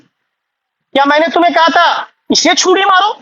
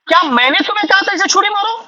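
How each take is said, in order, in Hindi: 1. ज़ोर 'इसे' पर पड़ता है। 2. ज़ोर 'कहा' पर पड़ता है। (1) "मैंने तो इसे नहीं कहा था, मैंने तो बोला उसको मार दो" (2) "मैंने तो कहा ही नहीं।"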